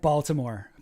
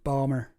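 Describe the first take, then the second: First: The word is said in full with the T. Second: The word is clipped with the T dropped.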